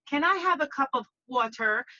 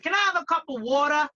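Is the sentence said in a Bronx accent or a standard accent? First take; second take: standard; Bronx. First: Water is said in a plain, non-Bronx accent. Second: Water is said in a Bronx accent, like madda. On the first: "You don't say" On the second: "You say"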